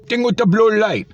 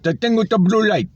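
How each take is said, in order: First: Exasperated mock. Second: "the thing with the blue light" in a high mock Indian English accent. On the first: Mocking the cashier's words back. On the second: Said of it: "he's got such a strong accent".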